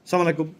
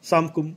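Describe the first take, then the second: First: The greeting drops its opening 'as' syllable. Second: The greeting is squeezed into two syllables, 'samkum'. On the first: "এগুলা ব্যঙ্গ করা হয়" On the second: "সালাম দিলেও তা ঠিকমতো উচ্চারণ হয় না"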